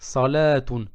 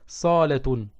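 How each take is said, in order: First: The vowel of the second syllable is lengthened. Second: The vowel of the first syllable is lengthened. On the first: It means prayer. "Au lieu de prolonger le sa, je prolonge le lem" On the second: It means living room. "au lieu de prolonger le lem"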